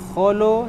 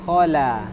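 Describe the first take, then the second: First: The vowels sound rounded, like o. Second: The vowels sound open, like a. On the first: The speaker calls it wrong. "Jangan kholo" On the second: The speaker calls it right. "tapi khala"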